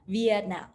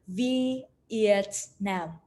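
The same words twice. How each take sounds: First: The syllables are said quickly and joined. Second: The syllables are said slowly and apart.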